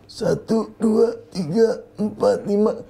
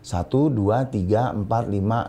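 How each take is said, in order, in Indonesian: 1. Suaranya terdengar tegang dan tertahan. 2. Suaranya terdengar santai dan lepas. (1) "otot lehernya ikut tegang. Jadi nggak boleh gitu" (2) "Nggak nahan diafragma"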